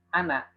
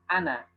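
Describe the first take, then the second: First: The final vowel is said short. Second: The final vowel is said short.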